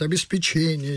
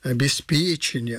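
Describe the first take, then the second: First: The stress is on the fourth syllable. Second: The stress is on the third syllable. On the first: The speaker calls it wrong. "Чаще с ударением на «че» говорят «обеспечение». Неправильно" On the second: The speaker calls it right. "С ударением на «п» – обеспечение, а не на «че»"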